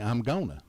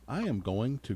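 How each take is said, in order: First: The words are contracted into a shorter form. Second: Every word is said in full. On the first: This is how typical Southerners say it. "typical Southerners will say" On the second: This is the standard way to say it. "Instead of saying"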